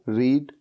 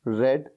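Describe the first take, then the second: First: The vowel is long, as in 'reed'. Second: The vowel is short, as in 'red'. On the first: It is the base form of the verb. "वो है रीड" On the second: It is the third form of the verb. "रीड की third form क्या होती है? रेड। यानी कि spelling तो same होती है लेकिन बोलने का तरीका अलग होता है"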